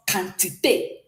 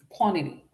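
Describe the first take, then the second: First: "quantité" with a k start and sharp é ending; French pronunciation. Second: "Quantity" said as in English, kw start and ee ending; English pronunciation. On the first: Teacher shows what quantity becomes in French, French pronunciation. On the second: Teacher reads the English example first, English pronunciation. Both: Shown as a demonstration. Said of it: "So this becomes quantité".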